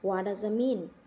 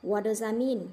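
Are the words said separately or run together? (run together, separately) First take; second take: run together; run together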